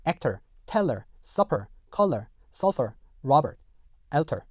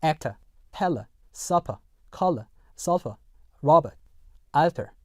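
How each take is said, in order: First: Actor, teller, supper ending in r-coloured schwa; American "actor, teller", weak "er" endings; American final R. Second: Actor, teller, supper ending in plain "uh"; British "actor, teller", weak schwa endings without R; British R-less endings. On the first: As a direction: say "color" and "alter" American-style, R sounded at the end. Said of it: "미국 영어에서는요". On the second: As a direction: say "color" and "alter" British-style, no final R. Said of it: "영국 영어에서는요". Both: Shown as a demonstration.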